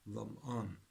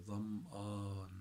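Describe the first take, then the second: First: Said in the usual way. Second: Dham'an with a long, held "aan"; extended-vowel demo. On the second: Shown as a demonstration. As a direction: stretch the last vowel of dham'an for a learner. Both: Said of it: "the extension letter".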